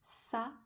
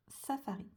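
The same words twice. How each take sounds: First: SAFARI split into sa, fa, ri with pauses; syllable by syllable. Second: Said in the usual way. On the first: Shown as a demonstration. Teacher showing three syllables, SAFARI broken apart. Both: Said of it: "On a trois syllabes".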